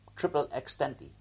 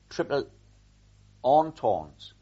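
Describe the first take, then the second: First: The phrase is pronounced as spelled in English. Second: The phrase is pronounced with French sounds. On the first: The speaker calls it wrong. "I pronounced it as I read it" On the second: The speaker calls it right. "I didn't pronounce it like that in French"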